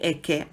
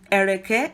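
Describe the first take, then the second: First: The word is contracted to two syllables. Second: All three syllables are pronounced in full. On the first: "We say eke" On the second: "nobody ever says ereke that frequently"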